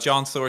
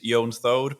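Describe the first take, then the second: First: The name is pronounced with English sounds. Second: The name is pronounced with Icelandic sounds. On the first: It is the everyday form used with English speakers. "introducing myself with the English pronunciation" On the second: It is the original, technically correct form. "I am Icelandic originally, so technically it's"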